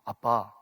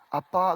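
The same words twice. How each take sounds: First: It is said in a deep, thick voice. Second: It is said in a strongly nasal voice. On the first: A son is coming to ask for money. "아빠보다 더 굵은 목소리로" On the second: A daughter is coming to ask for money. "코에 힘을 주고는"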